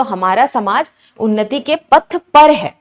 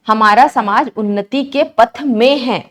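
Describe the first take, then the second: First: Slow, with पर pressed and falling at the end; stress on पर. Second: Reads हमारा समाज उन्नति के पथ में है slowly, lingering on के पथ में; teacher slowly reads the faulty sentence aloud so it sounds odd; slow wrong reading. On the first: Teacher giving students the corrected sentence, stressing पर. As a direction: lean on the word पर, slowly. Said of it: "ना कि में पर". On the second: Teacher reading the wrong sentence to students, slow and deliberate. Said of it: "बोलने से ही थोड़ा अजीब लग रहा है". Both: Shown as a demonstration.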